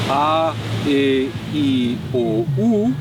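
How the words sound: The vowel letters are named as in German. "German has the vowels"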